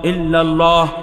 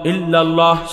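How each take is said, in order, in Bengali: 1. এটি একটি হালকা glottal stop দিয়ে শুরু হয়। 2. এটি একটি হালকা glottal stop দিয়ে শুরু হয়।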